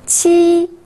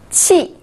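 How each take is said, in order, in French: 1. Le ton reste haut et plat. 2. Le ton tombe brusquement du haut.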